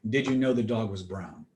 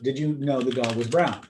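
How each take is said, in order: First: The voice falls at the end. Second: The voice rises at the end. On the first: It is said as a statement. "Or I could say it as a statement" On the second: It is asked as a question. "if it's in the form of a question, I can echo it back verbatim"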